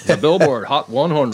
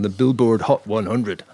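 First: It is said in a put-on American accent. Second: It is said in the speaker's usual non-American accent.

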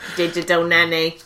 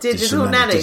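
First: It is said in a robotic voice. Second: It is said in a natural voice.

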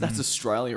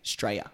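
First: The word is said in full. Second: The word is clipped, in a broad Australian accent.

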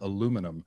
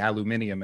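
First: It is said the Canadian way. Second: It is said the British way. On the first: The speaker calls it right. "the correct aluminum" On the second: The speaker calls it wrong. "they say aluminium"

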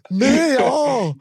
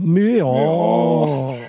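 First: The meow is said at a quicker pace. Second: The meow is said at a slower pace.

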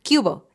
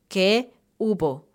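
First: It is run together into one word. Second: It is said as two separate words. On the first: "lo volvemos una palabra chistosa, es una sola palabra" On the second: "viene de la palabra o de la frase"

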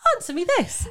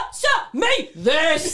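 First: It sounds light and casual. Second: It sounds bossy and demanding.

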